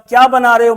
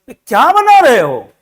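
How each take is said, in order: First: It is a plain, curious question. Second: It is said in an angry tone.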